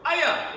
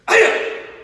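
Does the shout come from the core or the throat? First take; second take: throat; core. First: The shout is pushed from the throat. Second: The shout is driven from the core. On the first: The speaker calls it wrong. "It's not up here" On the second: The speaker calls it right. "It's down here"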